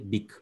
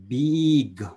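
First: The word begins with a short 'b' sound. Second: The word begins with the letter name 'bee'. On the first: The speaker calls it right. "we say big" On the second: The speaker calls it wrong. "We don't say big"

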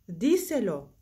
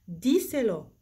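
The two takes are said the same way.

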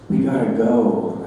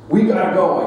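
First: It is said more softly. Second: It is said at normal loudness.

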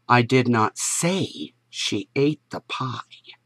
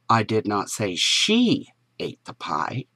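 First: The stress is on "say". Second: The stress is on "she".

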